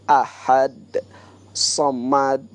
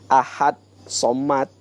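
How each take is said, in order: First: The final d of ahad has a bounce. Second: The final d of ahad has no bounce. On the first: "Ada pantulannya gitu ya" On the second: "Beda ahad somad gitu"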